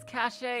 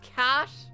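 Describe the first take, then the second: First: The word is said with two syllables. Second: The word is said with one syllable. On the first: "I've pronounced it as cachet all my life" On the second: "now you're telling me it's pronounced cash? ... why have the fucking E?"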